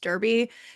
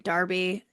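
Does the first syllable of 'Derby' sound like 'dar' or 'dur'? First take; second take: dur; dar. First: The first syllable sounds like 'dur'. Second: The first syllable sounds like 'dar'. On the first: The speaker calls it wrong. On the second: The speaker calls it right. "pronounce it Darby"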